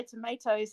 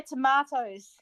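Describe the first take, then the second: First: "tomatoes" with a long AY in the middle; imitated American pronunciation. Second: "tomatoes" with a broad AH in the middle; British pronunciation. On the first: Showing streamer how you say it, "tomatoes" as to-MAY-toes. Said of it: "You say tomatoes". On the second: Shown as a demonstration. Showing streamer how we say it, "tomatoes" as to-MAH-toes. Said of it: "we say tomatoes".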